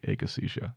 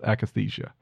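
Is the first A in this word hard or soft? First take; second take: hard; soft. First: The first A is said with a hard sound. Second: The first A is said with a soft sound. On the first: "use the hard A like akathisia" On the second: "That's the one I usually say"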